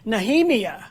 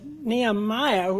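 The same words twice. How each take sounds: First: It is pronounced the Hebrew way. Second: It is pronounced the usual English way. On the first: The listener now recognizes the name. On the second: The listener did not recognize the name.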